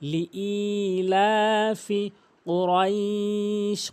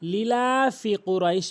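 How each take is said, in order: First: The first vowel is drawn out long. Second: The first vowel is said short. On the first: The speaker calls it right. "সঠিক উচ্চারণ হচ্ছে লিই। অবশ্যই হামজা ইয়াজের ই একালিফ টেনে উচ্চারণ করতে হবে" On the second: The speaker calls it wrong. "অধিকাংশ লোক ভুল করে লিলাফি কুরাইশ বলে"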